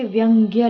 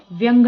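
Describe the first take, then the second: First: व्यंग्य ending in "gya"; correct pronunciation. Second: व्यंग ending on plain "ng"; wrong pronunciation. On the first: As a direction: sound the final ya of व्यंग्य. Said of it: "व्यंग्य होता है". (व्यंग्य के अंत में "ग्य" बोलें) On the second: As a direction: say व्यंग without final ya. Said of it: "व्यंग ना लिख के". (व्यंग को बिना "य" के बोलें) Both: Shown as a demonstration.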